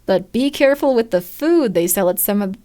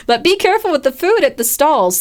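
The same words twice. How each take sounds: First: Said in the usual way. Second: Retake through a laugh; giggling as the line is fixed. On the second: Acted. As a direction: laugh while correcting the line.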